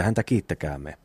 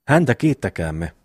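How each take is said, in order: First: Said in the usual way. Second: Mocking echo. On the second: Eero parrots his pious brother's call for thanks, lightly mocking. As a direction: echo the thanks with a touch of mockery. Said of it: "pilkkaa ja virnistystä taas".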